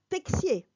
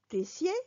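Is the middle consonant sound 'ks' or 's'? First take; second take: ks; s. First: The middle consonant is a ks sound. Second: The middle consonant is a plain s sound. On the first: This is the southern way of saying it. "Au sud, on dira texier" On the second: This is the northern way of saying it. "Au nord, on va dire tessier"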